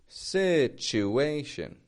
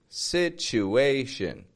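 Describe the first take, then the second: Both takes have the same delivery.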